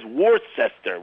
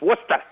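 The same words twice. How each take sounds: First: The name is said the way its spelling reads. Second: The name is said the local way. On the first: "it says Worcester" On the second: "It's Worcester"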